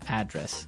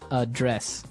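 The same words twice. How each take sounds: First: The stress is on the first syllable. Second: The stress is on the second syllable.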